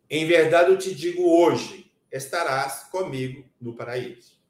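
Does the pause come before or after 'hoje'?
after. The pause comes after 'hoje'.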